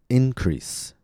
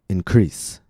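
First: The stress is on the first syllable. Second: The stress is on the second syllable. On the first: It is a noun: a rise in amount. "First, I'll say it as a noun, with stress on the first syllable" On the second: It is a verb: to make larger. "After that, I'll say it as a verb, with stress on the second syllable"

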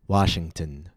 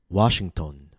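First: The last syllable has a short reduced vowel. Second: The last syllable has a full unreduced vowel. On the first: The speaker calls it right. "The letter O should be pronounced with a very short" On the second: The speaker calls it wrong. "A common mistake is"

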